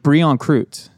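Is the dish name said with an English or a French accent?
English. It is said with a plain English pronunciation.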